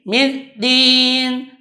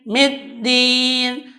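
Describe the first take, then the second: No difference in how they are said.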